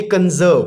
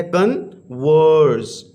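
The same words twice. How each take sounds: First: Said in the usual way. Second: "कन्वर्स" very slowly, split into two syllables. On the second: Shown as a demonstration. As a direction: break "कन्वर्स" in two, drawing out each syllable. ("कन्वर्स" کو دو حصوں میں توڑ کر آہستہ آہستہ) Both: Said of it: "दो syllable पर मुश्तमिल है".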